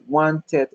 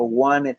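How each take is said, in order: First: "wanted" said as WAN-ted; a hard T opening the last syllable of "wanted"; clear T. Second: "wanted" said as WAN-ed, no T after the N; skipped T. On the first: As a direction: sound the T fully in "wanted". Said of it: "yo digo ted". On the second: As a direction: drop the middle T of "wanted". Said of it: "si me quiero saltar la T". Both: Shown as a demonstration.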